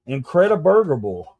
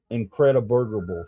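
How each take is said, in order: First: Incrediburgerable said again, a bit higher and louder; louder repeat. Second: Said in the usual way. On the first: Shown as a demonstration. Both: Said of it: "There's a new word for you".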